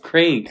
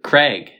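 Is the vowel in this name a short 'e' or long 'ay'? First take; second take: long ay; short e. First: The vowel is a long 'ay' sound. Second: The vowel is a short 'e' sound. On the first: "It's an AI" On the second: "You say it with an E"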